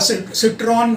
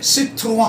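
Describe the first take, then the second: First: The word ends with an n sound. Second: The word ends with a vowel sound. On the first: The speaker calls it wrong. "होगा सिट्रॉन" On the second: The speaker calls it right.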